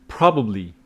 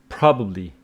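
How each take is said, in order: The two takes are said the same way.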